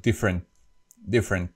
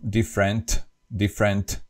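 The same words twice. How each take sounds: First: Different said as "differen"; dropped final T. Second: Different with a crisp final T; pronounced last T. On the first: Teacher shows the English way, different without final T. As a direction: swallow the last T of different. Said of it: "the last T is not pronounced". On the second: Teacher shows Slovak habit, different with sounded T. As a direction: release the T ending different. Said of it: "we always pronounce the last T". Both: Shown as a demonstration.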